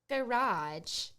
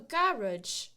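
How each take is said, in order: First: It is said in an American accent. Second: It is said in a British accent.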